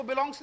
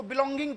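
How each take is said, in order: First: "बिलोंग्स" ending in a gs sound; belongs, S ending. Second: "बिलोंगिंग" with a final -ing syllable; belonging, -ing ending. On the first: Teacher showing the reading to avoid, "बिलोंग्स" ending in S. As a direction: read "बिलोंग्स" with a final S, no -ing. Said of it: "इसको बिलोंग्स नहीं पढ़ना है". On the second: Teacher showing the correct reading, "बिलोंगिंग" ending in -ing. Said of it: "इसको बिलोंगिंग पढ़ना है". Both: Shown as a demonstration.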